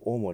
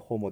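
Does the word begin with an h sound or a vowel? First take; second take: vowel; h sound. First: The word begins directly with a vowel. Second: The word begins with an h sound. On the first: The speaker calls it right. "H を発音しませんのでホモではなくオモになります" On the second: The speaker calls it wrong. "H を発音しませんのでホモではなくオモになります"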